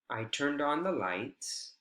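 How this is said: The voice stays level, mid-height, at the end. The speaker is going to continue speaking. "We know someone is going to continue speaking"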